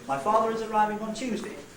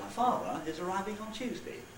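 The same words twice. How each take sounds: First: It is said as one unbroken phrase. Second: There is a break after 'father'. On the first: "just as one word group containing one nucleus" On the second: "two word groups with a boundary between father and is"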